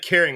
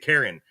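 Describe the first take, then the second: First: It is said as the word 'caring'. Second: It is said like the name 'Karen'. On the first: "They don't say caring" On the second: "they say Karen, right? ... because Texas"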